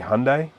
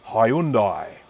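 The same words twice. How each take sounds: First: It is said the American way. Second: It is said the Australian way.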